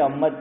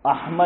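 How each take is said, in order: First: احمد squashed to "Ammad", no ha; mispronounced name. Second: احمد with a clear breath of ha, "Ah-mad"; correct name. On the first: Retold or imitated. Cleric mimicking what people say, slurred to "Ammad". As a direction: swallow the ha in احمد, double the m. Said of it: "کیا بولیں گے؟". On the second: Shown as a demonstration. Cleric praising a good name, properly articulated ha. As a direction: sound the ha fully in احمد. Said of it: "اتنا اچھا نام ہے".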